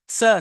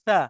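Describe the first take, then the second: First: The consonant is a hissing s sound. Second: The consonant is a soft th sound. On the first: The speaker calls it wrong. "स नहीं" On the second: The speaker calls it right. "हमें फ्रिक्शन नहीं चाहिए"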